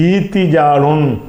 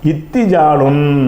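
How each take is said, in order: First: The first vowel is long, with no w sound. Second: A short vowel is followed by a doubled t. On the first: "அந்த வாவை ஏயா மாற்றி ஈத்தி ஜாலுன் என்றும் சொல்லலாம்" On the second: "ஈத்தி ஜாலுன்னு சொல்லாமல் சொல்லலாம்"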